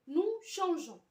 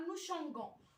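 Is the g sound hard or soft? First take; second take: soft; hard. First: The g is said as a soft zh sound. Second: The g is said as a hard g sound. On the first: The speaker calls it right. "ولكن حنا عندنا" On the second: The speaker calls it wrong. "الا كتبناها بحال هكا وتبعنا لا ريغل دو برونونسياسيون غنقراوها"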